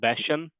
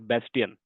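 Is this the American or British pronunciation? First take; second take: American; British. First: It is said with an American pronunciation. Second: It is said with a British pronunciation. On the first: "in the U S, we uh, pronounce this as Bastion" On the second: "In the U K, we pronounce this as Bastion"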